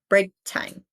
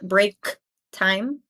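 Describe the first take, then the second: First: The K is held without releasing air. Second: The K is fully released with air. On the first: The speaker calls it right. "but break time" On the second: The speaker calls it wrong. "Not break time"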